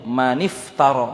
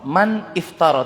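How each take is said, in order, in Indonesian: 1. Kata-kata itu disambung dengan bunyi i tambahan. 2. Kedua kata itu dipisah, tidak disambung. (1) "Maka sambungannya adalah maniftara" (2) "Tidak mengatakan man iftara"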